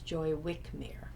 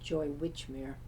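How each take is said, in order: First: The surname has a k sound after 'Wi'. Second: The surname has a ch sound after 'Wi'. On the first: This is how the narrator says the name. "she pronounces it as Joy Wickmere" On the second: This is how the creator says the name. "I pronounced it Joy Witchmere"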